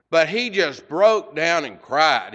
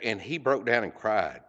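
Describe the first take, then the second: First: "broke down and cried" slow and louder, each word leaned on; emphatic. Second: Said in the usual way. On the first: Real, not acted. Preacher to congregation, repeating the man's tears with slow heavy stress. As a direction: land "But he just broke down and cried" slowly, word by word.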